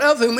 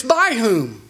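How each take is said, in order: First: "of" punched and falling into "whom"; stress on of. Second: "by" punched and falling into "whom"; stress on by. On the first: Preacher contrasting the small words, leaning on "of". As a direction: hit the word "of" hard, then drop. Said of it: "it's not". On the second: Preacher contrasting the small words, leaning on "by". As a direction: hit the word "by" hard, then drop. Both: Shown as a demonstration.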